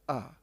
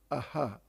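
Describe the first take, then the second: First: The sound stops at the h without echo. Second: The breathy h is followed by an echo vowel. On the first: The speaker calls it wrong. "and not just ah" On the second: The speaker calls it right. "the last syllable is aha"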